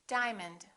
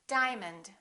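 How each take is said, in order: No difference in how they are said.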